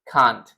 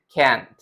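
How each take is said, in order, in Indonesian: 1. Diucapkan dengan aksen Inggris. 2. Diucapkan dengan aksen Amerika. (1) "Tapi kalau dalam British English" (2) "Kalau dalam American English"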